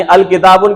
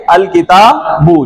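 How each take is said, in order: First: अल किताबुन with the final "-un" pronounced; wrong full ending. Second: अल किताबू ending on a long, slow "oo"; dropped nunation. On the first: Teacher showing students the unwanted form, अल किताबुन ending in "-un". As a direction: sound the closing n in अल किताबुन. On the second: Teacher showing students the correct form, अल किताबू slowly ending in open "oo". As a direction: draw out the final "boo" in अल किताबू, no n. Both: Shown as a demonstration. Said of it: "की बजाय क्या पढ़ेंगे".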